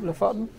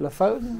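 First: "Lofoten" with a short open o, rising; trying a pronunciation. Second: "Lofoten" with a long "oh" in the middle; trying a pronunciation. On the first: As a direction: try "Lofoten" as luh-FOT-en, asking. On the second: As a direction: try "Lofoten" as luh-FOH-ten. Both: Shown as a demonstration. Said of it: "How do you pronounce it".

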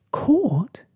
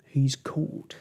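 First: High, loud gasped question; startled high outburst; shocked gasp. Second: Mildly woeful moan; understated storybook lament. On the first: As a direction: gasp it back in disbelief, pitched right up. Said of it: "gasped Snugglepot". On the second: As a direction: moan it out in dismay. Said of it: "moaned Mister Lizard". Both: A narrator's reading.

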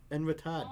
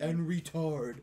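First: "En retard" with a dropped R, Boston style; Boston accent. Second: "En retard" said carefully with the R sounded; proper French. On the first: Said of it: "I love your Boston accent with it". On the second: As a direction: say "En retard" properly, not Boston. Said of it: "I'll say, you know, appropriately". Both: Shown as a demonstration.

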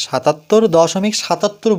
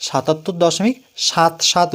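First: সাতাত্তর দশমিক সাতাত্তর, the decimal part read as one number; wrong reading. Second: সাতাত্তর দশমিক সাত সাত, with each digit after দশমিক said on its own; correct digit reading. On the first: Teacher showing a student the wrong way, decimal part as one number. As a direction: reads সাতাত্তর after দশমিক as a whole number, the way not to say it. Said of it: "বলবো না". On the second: Teacher showing a student the right way, digits said separately. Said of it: "আলাদা আলাদা করে উচ্চারণ করতে হবে". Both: Shown as a demonstration.

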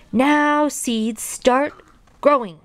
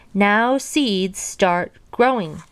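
First: High, emphatic word-by-word shouted command; shouting. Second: Firm, mildly raised command; slow, deliberate order, a touch loud; said loudly. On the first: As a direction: shout each word separately, pitched up. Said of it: "and shouted". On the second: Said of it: "said loudly". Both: A narrator's reading.

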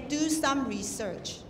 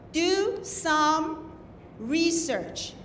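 First: Slow "Do some research" without a pause, RE not highlighted; wrongly stressed "research". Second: "research" set apart after a pause, first syllable stressed; stress within "research". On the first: Judge shows contestants what to avoid, "research" left without its accent. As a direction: run "research" on without lifting its first syllable. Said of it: "you don't say". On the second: Judge shows contestants the accented syllable, stressing "research" on RE. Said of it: "accent syllable". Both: Shown as a demonstration.

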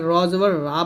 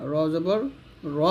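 First: র জবর রা with a stretched aa on রা; wrong long ra. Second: র জবর র with the vowel kept short; correct short ra. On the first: Teacher showing students the wrong long রা. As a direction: say রা with the long Bangla aa. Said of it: "বলা যাবে না". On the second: Teacher giving students the correct short র. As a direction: keep the last র short and unstretched. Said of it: "বলতে হবে". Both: Shown as a demonstration.

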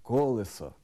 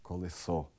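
First: Колесо stressed on the first syllable, кОлесо; correct stress. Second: Колесо stressed on the second syllable, колЕсо; wrong stress. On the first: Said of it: "Правильно". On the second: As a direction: say колесо with stress on ле, lower and softer. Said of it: "Неправильно". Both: Shown as a demonstration.

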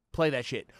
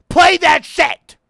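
First: Said in the usual way. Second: High, loud and slow demand; pleading shout. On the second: Real, not acted. Gamer shouting at the music box to play. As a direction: yell at the game to play.

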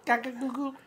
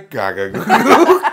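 First: Put-on soft, high baby babble. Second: Put-on slow, laughing baby babble. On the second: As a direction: babble slowly through laughter. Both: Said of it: "Read the joke in a baby's voice".

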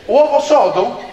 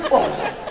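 First: Rising, puzzled echo of the dish name; baffled question. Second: Said in the usual way. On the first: Retold or imitated. Comedian echoing the waiter's dish in disbelief, puzzled rising question. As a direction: repeat "Uovo sodo?" as a surprised question, pitch climbing on "sodo".

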